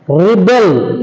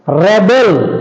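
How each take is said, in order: First: The stress is on the second syllable. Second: The stress is on the first syllable. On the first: It is used as a verb. "it is a verb" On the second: It is used as a noun. "it is a noun"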